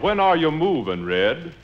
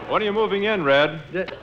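First: It is said with a Southern drawl. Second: It is said in a plain, neutral accent.

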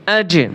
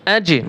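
No difference in how they are said.

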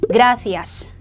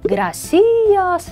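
First: The stress falls on the syllable gra. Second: The stress falls on the syllable ci. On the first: The speaker calls it right. "gracias 하고 이 앞부분을 세게" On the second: The speaker calls it wrong. "gracias 라고 많이 읽고 싶어 하시는데 자, 아니네요"

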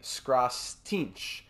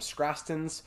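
First: The name ends with a ch sound. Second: The name ends with a plain s sound. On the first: The speaker calls it right. "It's actually Skrastinch" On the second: The speaker calls it wrong. "I was pronouncing his name Skrastins"

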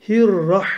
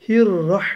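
The two takes are said the same way.

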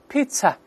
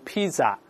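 First: The middle consonant is a ts sound. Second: The middle consonant is a z sound. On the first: The speaker calls it right. "而是pizza" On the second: The speaker calls it wrong. "就不能读pizza"

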